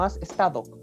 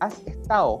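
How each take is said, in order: First: The d between vowels is clearly pronounced. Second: The d between vowels is dropped. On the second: "la D intervocálica"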